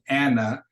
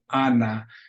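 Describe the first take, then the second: First: The last vowel is a weak schwa. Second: Both vowels are the same full 'ah'. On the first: "in English we say Anna ... the A is going to have two different sounds" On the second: "in Spanish, that A is always going to be consistent"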